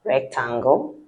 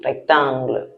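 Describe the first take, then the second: First: "Rectangle" the English way, ending in -gol; English pronunciation. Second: "Rectangle" the French way, ending in a soft -gluh; French pronunciation. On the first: Teacher gives pupils the English word, English pronunciation. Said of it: "not too different from the English one". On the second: Teacher compares it with English, French pronunciation. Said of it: "the sound is not too different". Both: Shown as a demonstration.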